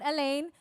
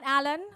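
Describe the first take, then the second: First: The name sounds like 'Elaine'. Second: The name sounds like 'Alan'. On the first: "not Elaine" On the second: "Not Alan"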